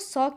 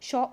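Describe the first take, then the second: First: The word begins with an s sound. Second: The word begins with an sh sound. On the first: This is how people from UP say it. "UP के लोग जो है वो ... सौ कहते हैं" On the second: This is how people from the north say it. "North के लोग जो है वो अच्छे से जो है वो शौ उच्चारित करते हैं"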